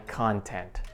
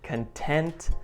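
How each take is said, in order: First: The stress is on the first syllable. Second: The stress is on the second syllable. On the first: It is information people put on a website. "When we stress the first part" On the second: It describes feeling happy or satisfied. "content means happy or satisfied"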